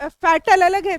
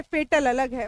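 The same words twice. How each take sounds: First: फैटल said with an open "fa" as in fat; fatal vowel. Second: फेटल said with a long "fe" as in fate; fate vowel. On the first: Teacher contrasting फैटल with फेटल, clear open vowel. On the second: Teacher contrasting फेटल with फैटल, long e vowel. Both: Shown as a demonstration. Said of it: "इसका pronunciation फैटलिस्ट नहीं".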